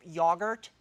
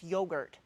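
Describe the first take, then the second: First: Yogurt said the British way, YOG-urt with a short o; British pronunciation. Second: Yogurt said the American way, YOH-gurt with a long o; American pronunciation. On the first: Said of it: "pronounce in British English". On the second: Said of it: "No, it's yogurt". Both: Shown as a demonstration.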